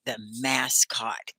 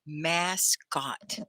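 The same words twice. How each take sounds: First: Slow clear "mascot"; teacher modeling "mascot"; model word. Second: Softer "Mascot" said clearly; model word repeated. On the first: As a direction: say "mascot" slowly, both syllables clear. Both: Shown as a demonstration. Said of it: "Can you say it?".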